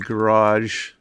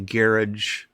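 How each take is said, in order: First: It is said the speaker's own non-English way. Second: It is said the English way.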